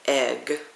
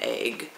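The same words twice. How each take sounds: First: The vowel is a plain short 'e'. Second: The vowel sounds like an 'ay' sound. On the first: The speaker calls it right. "so it is supposed to be egg" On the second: The speaker calls it wrong. "it is not egg because there is no A in egg"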